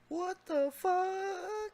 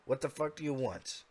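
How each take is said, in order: First: It is said as a frightened, weak whimper. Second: It is said in an angry, commanding tone.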